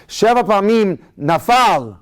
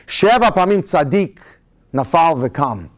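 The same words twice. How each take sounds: First: "Sheva pamim nafal" slow, with a clear stop after "nafal"; correct phrasing. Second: Comma after tzadik, pause after "tzadik"; wrong phrasing. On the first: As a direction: pause after "nafal", then go on. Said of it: "the way we should say it". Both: Shown as a demonstration.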